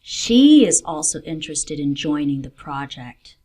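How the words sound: The stress falls on the word she. This person, not another, is interested. "She, not another person"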